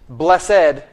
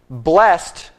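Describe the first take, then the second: First: The word is said as two syllables. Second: The word is said as one syllable. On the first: The word is used as an adjective. "Blessed is an adjective" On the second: The word is used as a verb. "Blessed is a verb"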